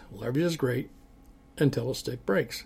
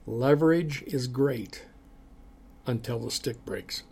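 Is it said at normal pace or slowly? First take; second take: normal pace; slowly. First: It is said at a normal pace. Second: It is said more slowly.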